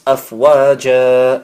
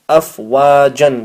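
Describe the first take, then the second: First: The word ends with a long a vowel. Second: The word ends with an n sound. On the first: The reader stops at the end of the verse. "It becomes afwaja. You read it with one fatha, one zabar, and one alif" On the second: The word is read without stopping on it. "It says afwajan"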